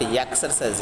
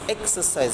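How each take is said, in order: First: The word begins with a y consonant sound. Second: The word begins with a plain vowel sound. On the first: The speaker calls it wrong. "not exercise. Ya means consonant sound" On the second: The speaker calls it right. "It is exercise vowel sound"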